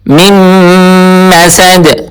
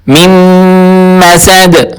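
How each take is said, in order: Both takes have the same delivery.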